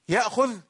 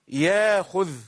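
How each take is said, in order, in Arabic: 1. تُسمع همزة داخل الكلمة. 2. يحل حرف مد محل الهمزة.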